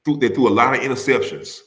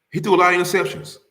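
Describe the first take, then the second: First: Said in the usual way. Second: "He threw" jumps up in pitch and rushes the rest; emphatic repeat. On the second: Shown as a demonstration. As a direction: hit "threw" high and push through the line.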